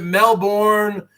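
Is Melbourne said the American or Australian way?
American. It is said with an American pronunciation. "in America, we pronounce it Melbourne"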